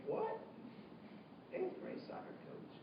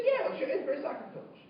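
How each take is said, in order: First: Breathless, whispered disbelief, much softer; stunned whisper. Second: Said in the usual way. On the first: Retold or imitated. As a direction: whisper it as if you cannot believe it. Student stunned by the answer.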